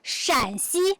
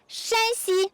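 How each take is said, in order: First: The first syllable has a low dipping tone. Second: The first syllable has a high level tone. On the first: It names the province here. "the third accent, is this province" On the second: It names the province over there. "the first accent, is that province"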